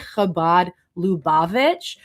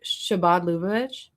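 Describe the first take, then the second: First: The name begins with a 'ch' sound. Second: The name begins with an 'sh' sound. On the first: The speaker calls it right. "He tried to say Chabad Lubavitch" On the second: The speaker calls it wrong. "he instead pronounced the C H as a sh"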